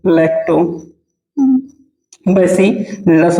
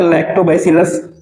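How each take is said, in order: First: lactobacillus broken into parts with long pauses; lactobacillus at writing-down speed; slow dictation. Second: Said in the usual way. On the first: Shown as a demonstration. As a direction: dictate lactobacillus very slowly, piece by piece. Teacher dictating term for notes.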